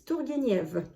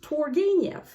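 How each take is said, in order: First: The name is said with French pronunciation. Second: The name is said with English pronunciation. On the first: "In French" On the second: "In English"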